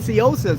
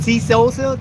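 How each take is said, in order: First: The name starts without a T sound. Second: The name starts with a T sound. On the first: "I don't use the T because I thought the T was silent" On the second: "But is it T Sosa?"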